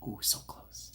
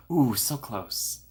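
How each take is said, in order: First: Breathy whisper of "Ooh, so close"; conspiratorial whisper. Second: Slow, stretched-out "Ooh, so close"; teasing slow-motion "so close"; drawn-out ooh. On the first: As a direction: drop to a secret whisper. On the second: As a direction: savour each word slowly. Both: Acted. Reacting to a chat attempt.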